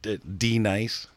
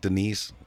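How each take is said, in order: First: The name is said as D Nice. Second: The name is said in its usual way. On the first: The speaker calls it wrong. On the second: The speaker calls it right.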